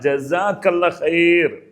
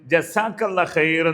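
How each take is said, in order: First: The second consonant is a clear z sound. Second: The second consonant is a plain s sound. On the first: The speaker calls it right. "ആ സെഡിന്റെ pronunciation correct ആണത്" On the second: The speaker calls it wrong. "തെറ്റായി നമ്മുടെ ആൾക്കാർ പറയും"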